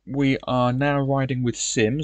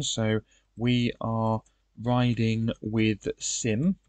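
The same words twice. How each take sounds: First: Said in the usual way. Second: Drawn out slowly while typing it in; slow dictation. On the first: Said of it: "so I'll write that". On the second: Shown as a demonstration. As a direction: spell it out slowly as if writing it down. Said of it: "so I'll write that in the information".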